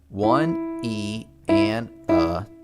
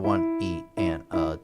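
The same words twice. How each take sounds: First: The counting is said slowly. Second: The counting is said faster. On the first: "I'm going to go nice and slow and count these out" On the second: "So a little bit faster"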